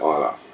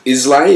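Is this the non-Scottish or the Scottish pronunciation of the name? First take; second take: Scottish; non-Scottish. First: The name is said the Scottish way. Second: The name is said the non-Scottish way. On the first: This is how local people say it. The speaker calls it right. "the Scots pronounce it Islay" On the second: The speaker does not know the local pronunciation. The speaker calls it wrong. "pronounce it Islay if they don't know better"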